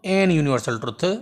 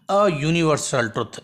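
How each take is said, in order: First: "an" said slowly before "universal", marked as the mistake; slow take of the error with "an"; teacher slowly showing the wrong article; wrong form. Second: "a" said clearly and slowly before "universal"; slow take with the "a" marked; teacher slowly showing the right article; correct form. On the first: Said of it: "न थींदो। हे ग़लति आहे". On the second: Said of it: "ऐं हे सही थींदो". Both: Shown as a demonstration.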